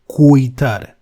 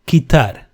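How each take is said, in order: First: A u sound is heard after the k. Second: No u sound is heard after the k. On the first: The speaker calls it wrong. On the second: The speaker calls it right.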